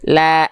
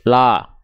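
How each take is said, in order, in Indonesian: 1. Vokal itu diucapkan dengan bibir direntangkan sangat lebar. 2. Vokal itu diucapkan tanpa merentangkan bibir. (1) "Bukan juga senyum yang berlebihan ya" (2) "Jadi bukan la"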